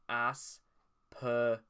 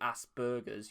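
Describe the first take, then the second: First: The consonant after the S is a P. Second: The consonant after the S is a B. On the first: The speaker calls it right. "It's pronounced Asperger's" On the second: The speaker calls it wrong. "there would be a B instead of a P"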